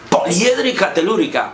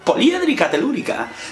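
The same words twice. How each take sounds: First: The words are said in an angry tone. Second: The words are said in a happy tone. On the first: "puedo decir enfadado" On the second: "o lo puedo decir contento"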